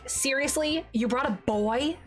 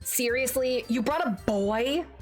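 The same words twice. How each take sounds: First: It is said in a higher voice. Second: It is said in a lower voice.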